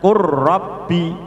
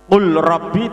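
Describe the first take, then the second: First: The l merges into a doubled r. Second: The l is sounded before the r. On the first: "dibaca qur rabbi" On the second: "lam sukun bertemu ro sama dengan ro tasdid"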